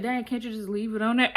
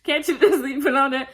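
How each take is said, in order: First: Friend's line said through a laugh; laughing quote. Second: Louder and higher, cracking up; laughing repeat. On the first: Friend joking about the car, laughing lightly. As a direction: tease the girl with a giggle. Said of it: "Fabby Laura's so funny". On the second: Repeating the friend's joke about the car, laughing loudly. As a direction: echo the joke while laughing hard. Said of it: "I said". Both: Retold or imitated.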